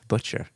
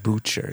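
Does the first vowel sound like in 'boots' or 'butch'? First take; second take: butch; boots. First: The first vowel sounds like the vowel in butch. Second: The first vowel sounds like the vowel in boots. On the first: The speaker calls it right. "It rhymes with butch" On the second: The speaker calls it wrong. "It's not butcher"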